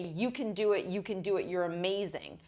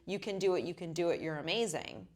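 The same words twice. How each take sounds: First: It is said forcefully, with strong conviction. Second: It is said flatly, with little conviction. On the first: The speaker calls it right. "Then I said it with more conviction" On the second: The speaker calls it wrong. "that feels different"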